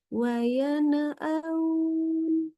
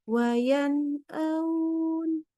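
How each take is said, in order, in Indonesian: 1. Ada vokal tambahan setelah n. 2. N ditekan keras dan terputus tiba-tiba. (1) "jangan sampai nunnya jadi tawalut ya, jadi seperti ini... Itu contoh salahnya" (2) "membaca nunnya tidak boleh syiddah, nggak boleh gini... terputus"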